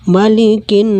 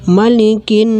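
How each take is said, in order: Both takes have the same delivery.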